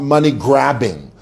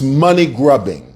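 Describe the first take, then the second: First: The second part has the vowel of 'grab'. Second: The second part has the vowel of 'grub'. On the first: The speaker calls it wrong. "not money-grabbing" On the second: The speaker calls it right. "It's money-grubbing"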